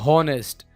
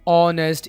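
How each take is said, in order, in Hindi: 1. इस शब्द की शुरुआत में h की आवाज़ सुनाई देती है। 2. यह शब्द स्वर से शुरू होता है, h की आवाज़ नहीं है।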